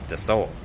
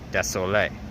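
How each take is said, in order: First: The word stops at 'sol' with no final vowel. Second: The word ends with an 'ay' vowel after 'sol'. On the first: The speaker calls it wrong. "not de sol" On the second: The speaker calls it right. "the word for how you say sorry is désolé"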